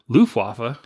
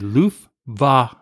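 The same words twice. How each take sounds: First: The middle sound is a W sound. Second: The middle sound is a V sound. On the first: The speaker calls it wrong. "you guys keep saying Luftwaffe" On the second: The speaker calls it right. "It's actually Luftwaffe"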